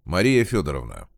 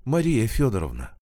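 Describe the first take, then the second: First: Lower, firmer official address; investigator addressing witness. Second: Put-on higher-pitched, feeble old woman; weak voice. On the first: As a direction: say Мария Фёдоровна as an investigator would. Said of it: "попросил её Овсянников". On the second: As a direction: give the name Мария Фёдоровна weakly. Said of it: "еле выговорила она слабым голосом". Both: A narrator's reading.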